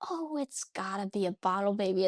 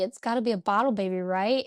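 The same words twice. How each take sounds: First: Said in the usual way. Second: Rushed, wheedling second ask; fast pleading repeat. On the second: Retold or imitated. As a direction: hurry it like a kid begging dad. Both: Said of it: "I'm like".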